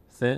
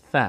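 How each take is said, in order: First: Said in the usual way. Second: ث said as a short "tha"; letter with fatha. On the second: Shown as a demonstration. Teacher adding fatha to the letter, ث as "tha". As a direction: sound ث with an open a, "tha", not the letter name. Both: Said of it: "فقط صدای ا".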